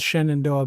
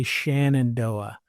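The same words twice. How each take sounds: First: SHENANDOAH starting SHEN, short e; as spelled. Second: SHENANDOAH starting SHAN, with an a; local mispronunciation. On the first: Shown as a demonstration. Complaining about locals, Shenandoah said as spelled with an e. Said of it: "It's obviously spelled Shenandoah". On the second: Retold or imitated. Imitating what locals say, Shenandoah with an a. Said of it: "but they say Shenandoah".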